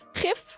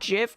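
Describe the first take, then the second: First: It begins with a throaty, rasping G sound. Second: It begins with a J sound. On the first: "pronounce it like the Dutch way" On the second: "the other option is a J"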